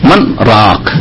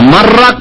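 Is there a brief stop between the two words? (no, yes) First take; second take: yes; no. First: A brief stop between the words, breath held. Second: The two words run together without a stop. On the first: The speaker calls it right. "শ্বাস ছাড়বেন না, কিন্তু একটু থামবেন" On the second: The speaker calls it wrong. "মার রাগ পড়ে নেবেন একটা না তাও চলবে না"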